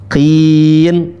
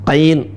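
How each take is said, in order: First: The syllable has a plain short i vowel. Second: The syllable has an ai glide vowel. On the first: The speaker calls it right. "Qafnya qin, qin" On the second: The speaker calls it wrong. "qain, bukan"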